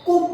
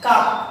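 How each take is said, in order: First: The vowel is a rounded 'oo' sound. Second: The vowel is an open 'uh' sound. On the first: "কুপ হওয়া উচিত ছিল" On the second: "এখানে ইউটা কিন্তু আর মতো উচ্চারণ হচ্ছে"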